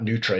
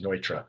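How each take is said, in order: First: The name is said with an English pronunciation. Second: The name is said with a German pronunciation. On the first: The speaker calls it wrong. "not Neutra" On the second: The speaker calls it right. "It's the German pronunciation of it"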